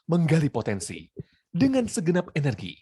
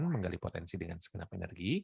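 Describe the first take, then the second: First: It is spoken strongly, with lots of energy. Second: It is spoken flatly, with little energy. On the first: "kalau memakai energi" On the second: "Ngomongin nggak berenergi kayak gini"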